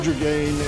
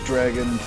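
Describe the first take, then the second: First: The name is said in a fancy-sounding way. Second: The name is said in a plain, ordinary way. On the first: This follows the fancy spelling of the name. "I say Dragain, ... so I'm gonna say it really fancy" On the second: This is how most people say the name. "everybody else says Dragon"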